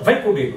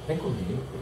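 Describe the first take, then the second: First: Loud, with strong stress on the verb. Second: The second word is stretched, pitch lowered. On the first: It is an order. "Se eu acentuar o verbo e elevar a voz" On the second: It is a suggestive invitation. "aumentar o comigo, prolongar e der uma, baixar o tom"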